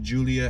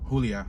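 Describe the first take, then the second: First: The name is said with an English accent. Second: The name is said with a Spanish accent.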